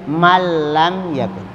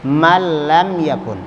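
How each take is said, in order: The two takes are said the same way.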